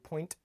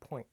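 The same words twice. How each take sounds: First: The final t is crisply and clearly released. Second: The final t is softened and barely heard. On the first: "I didn't say point" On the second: "I said point"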